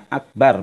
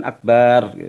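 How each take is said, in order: First: "akbar" dengan bar pendek; bacaan benar. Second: "akbar" dengan bar ditarik panjang; bacaan salah dipanjangkan. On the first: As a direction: ucapkan "akbar" dua ketukan, tanpa dipanjangkan. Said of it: "Jadi bacanya akbar". ("akbar" dibaca pendek) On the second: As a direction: panjangkan suku akhir "akbar" jadi "akbaar". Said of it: "Dipanjangin udah artinya jadi tadi berbeda". ("akbar" dibaca memanjang, lambat) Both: Shown as a demonstration.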